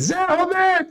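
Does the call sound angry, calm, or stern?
angry. The name is called out in a sharp tone. Trouble is coming, so come at once. "tem que correr"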